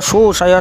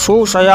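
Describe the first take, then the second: No difference in how they are said.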